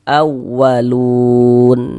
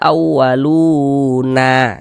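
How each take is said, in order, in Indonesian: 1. Kata ini berakhir dengan huruf n mati, tidak ada vokal. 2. Kata ini berakhir dengan tambahan vokal a. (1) "kita baca awalun" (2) "Jangan dibaca awaluna"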